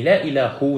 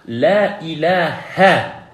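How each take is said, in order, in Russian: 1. Слово заканчивается на другую гласную. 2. Слово заканчивается на гласную 'a'. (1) "Не «ля иля ху»" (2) "И поэтому мы говорим «ля иля ха»"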